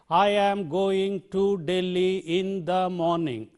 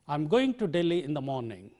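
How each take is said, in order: First: Every word carries roughly equal stress. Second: Only going, Delhi and morning carry stress. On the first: The speaker calls it wrong. "We do not say, That's not the way we say this" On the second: The speaker calls it right. "the stresses are coming here on going and Delhi and in the morning"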